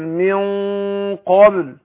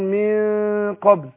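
First: The nasal sound is heavy and full. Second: The nasal sound is light and thin. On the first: The speaker calls it right. "قول من قبل كده" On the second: The speaker calls it wrong. "ما ينفعش اقول من قبل ده خطا"

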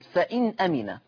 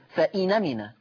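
First: The n has no vowel, then a glottal stop. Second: The glottal stop is dropped; the n takes 'a'. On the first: "أدي النون ساكنة هكذا ... النون ساكنة ثم الهمزة مفتوحة" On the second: "تحذف الهمزة ثم تنقل حركة الهمزة وهي الفتح إلى النون، فتصير فإنمنا"

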